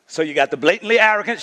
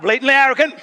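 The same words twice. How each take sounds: First: Said in the usual way. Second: Congregation shouts it back; blatantly arrogant, shouted out. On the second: Shown as a demonstration.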